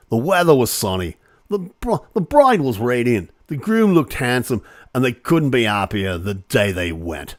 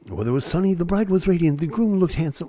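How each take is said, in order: First: Hammed-up Aussie accent, a bit louder; mock Australian accent. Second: Said in the usual way. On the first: Shown as a demonstration. Host rereading the wedding statement, in a mock Australian accent. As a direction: read it like a cheery Australian local. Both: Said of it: "I've gotta do that with the right accent".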